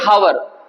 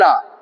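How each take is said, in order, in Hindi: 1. शब्द की शुरुआत में सुनाई देने वाली h ध्वनि है। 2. शब्द सीधे एक स्वर ध्वनि से शुरू होता है। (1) "अगर हम एच को देखते हुए इसका प्रोनाउंसिएशन करेंगे" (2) "इंग्लिश में एच इसमें साइलेंट होता है"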